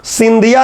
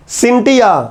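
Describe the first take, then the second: First: सिंधिया said "sin-DHI-ya", with a voiced dh; voiced dh in the middle of सिंधिया; mistaken pronunciation. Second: सिंटिया said "sin-TI-ya", with a hard t; unvoiced t in the middle of सिंटिया; corrected pronunciation. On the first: Teacher rules out a misreading, सिंधिया with voiced dh. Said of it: "सिंधिया नहीं". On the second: Teacher corrects to the NCERT reading, सिंटिया with hard t. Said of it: "हमारी NCERT इसको सिंटिया पढ़ती है". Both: Shown as a demonstration.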